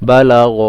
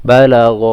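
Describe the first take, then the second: Both takes have the same delivery.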